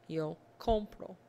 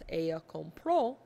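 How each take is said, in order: First: The stress is on the first syllable. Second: The stress is on the last syllable.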